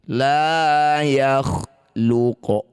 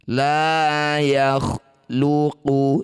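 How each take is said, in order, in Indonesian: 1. Kata terakhir berakhir dengan bunyi qaf yang dipantulkan. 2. Kata terakhir berakhir dengan vokal u pendek.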